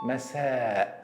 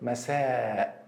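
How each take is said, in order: The two takes are said the same way.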